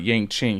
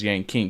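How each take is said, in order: First: The second word begins with a 'ch' sound. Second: The second word begins with a 'k' sound. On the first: The speaker calls it wrong. "It's not Yang Ching" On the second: The speaker calls it right. "He's Yang King because he's a king"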